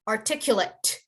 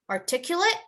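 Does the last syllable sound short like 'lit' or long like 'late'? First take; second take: short 'lit'; long 'late'. First: The final syllable is short and ends on t. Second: The final syllable is long, like 'late'. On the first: The word is used as a noun. "if it's a noun, you would say it as articulate. You have to end in the t sound" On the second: The word is used as a verb. "But if it's a verb, you would say to articulate"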